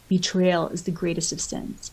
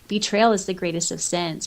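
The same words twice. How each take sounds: First: It is read in a put-on Eron voice. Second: It is read in the speaker's normal voice.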